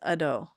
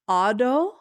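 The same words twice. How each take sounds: First: The first vowel is short. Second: The first vowel is long. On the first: "it could be short A, which is ado" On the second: "I think it's a ado"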